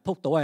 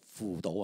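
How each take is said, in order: First: The first syllable begins with a p sound. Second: The first syllable begins with an f sound. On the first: The speaker calls it wrong. "唔系扑倒" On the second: The speaker calls it right. "应该读扶倒"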